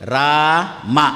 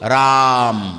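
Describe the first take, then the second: First: The word ends with a final vowel. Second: The word ends on the consonant m. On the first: This is how it is written. "ಬರೆಯುವುದು" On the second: This is how it is read aloud. "ಓದುವುದು; ಆ ಕೊನೆ ಆಕಾರ ಎಲ್ಲಿ ಹೋಯ್ತೋ"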